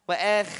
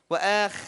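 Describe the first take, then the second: No difference in how they are said.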